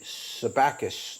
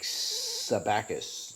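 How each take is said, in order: First: The s sounds in the name are short. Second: The s sounds in the name are drawn out.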